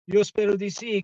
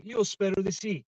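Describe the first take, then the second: First: Emphatic louder repeat. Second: Said in the usual way. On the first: Real, not acted. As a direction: say it again, louder and more insistent. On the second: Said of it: "Io spero di sì, caro Anthony".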